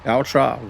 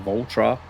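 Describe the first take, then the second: First: Valtra said as VEL-truh; alternate pronunciation. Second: Valtra said as VOL-truh; alternate pronunciation. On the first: Vlogger trying out the tractor's name, VEL-truh pronunciation. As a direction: say "Valtra" with a short e up front. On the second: Vlogger correcting himself on the tractor's name, VOL-truh pronunciation. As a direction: say "Valtra" with a rounded o up front. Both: Shown as a demonstration. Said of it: "Or Valtra".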